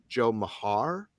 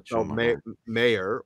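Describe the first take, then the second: First: The surname is said as 'Ma-har'. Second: The surname is said as 'Mayer'. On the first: This is how a family member always said it. "Dad always pronounced it" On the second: This is how the written name seems to read. "It looks like it's"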